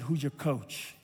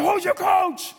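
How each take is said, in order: First: Low, soft, leaned-in question; quiet, intimate question. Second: High, insistent acted shout; mock shouted demand. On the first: Retold or imitated. Coach leans in to his player, quiet intimate question. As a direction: lean in and ask it gently. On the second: Coach demands player name him as coach, mock shouted demand. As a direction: play a coach yelling for the answer. Coach repeats challenge, escalating.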